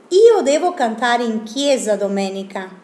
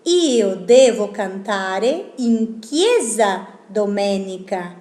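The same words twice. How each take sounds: First: Io devo cantare in chiesa domenica read in Italian; Italian sentence. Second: Io devo cantare in chiesa domenica, slow and careful; slow Italian sentence. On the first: (frase en italiano leída como ejemplo) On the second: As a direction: read the Italian again slowly. (la frase en italiano, lenta y clara) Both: Shown as a demonstration. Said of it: "Por ejemplo".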